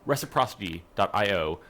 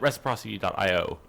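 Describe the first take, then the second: First: It is said slowly with each sound clearly articulated. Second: It is said quickly with casual, blurred articulation.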